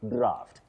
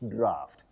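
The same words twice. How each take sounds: The two takes are said the same way.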